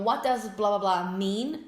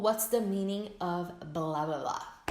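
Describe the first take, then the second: First: Slow, clear model sentence; slow template. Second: Slow, clear alternate form; slow template. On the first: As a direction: present the pattern slowly. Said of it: "Então". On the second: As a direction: give the second pattern slowly. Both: Shown as a demonstration.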